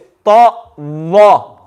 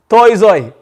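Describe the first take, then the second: First: The second letter starts with a 'th' sound. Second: The second letter starts with a 'z' sound. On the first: The speaker calls it right. "it's to wa" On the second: The speaker calls it wrong. "we will say toy zoi. It's not toy zoi"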